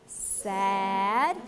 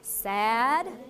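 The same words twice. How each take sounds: First: The word is drawn out slowly, sounds held long. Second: The word is said at a normal, smooth pace. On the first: "we'll stretch sad out" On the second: "You say sad"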